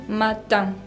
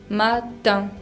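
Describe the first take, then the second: Both takes have the same delivery.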